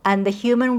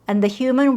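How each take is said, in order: No difference in how they are said.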